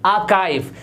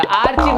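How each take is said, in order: First: आर्काइव with a K, "AA-kive"; correct pronunciation. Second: आर्चीव with "ch", "AR-cheev"; ch and long ee in आर्चीव; wrong pronunciation. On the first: Teacher repeats for learners, आर्काइव said "aa-kive". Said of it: "ये होता है". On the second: Teacher shows learners the mistake, आर्चीव said "ar-cheev". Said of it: "आर्चीव नहीं होता". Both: Shown as a demonstration.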